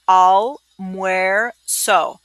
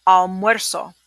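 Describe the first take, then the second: First: "almuerzo" stretched very slowly, each syllable apart. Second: Said in the usual way. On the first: Shown as a demonstration. Teacher slows a tough word down for the class, syllable by syllable. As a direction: break "almuerzo" into slow separate syllables. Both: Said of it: "That's a tough one".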